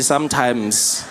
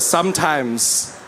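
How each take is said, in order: First: Slow stretched sometimes, falling; sometimes, drawn out. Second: Slow stretched sometimes, falling; sometimes, drawn out again. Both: Shown as a demonstration. Comic hedge to the crowd, slow stretched sometimes. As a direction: drag out sometimes slowly with a fall. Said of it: "but not always".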